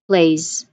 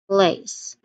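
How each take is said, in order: First: The word ends with a buzzing z sound. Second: The word ends with a hissing s sound. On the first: The speaker calls it right. "this is also using z sound. So you say it as like this" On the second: The speaker calls it wrong. "That is also an S sound"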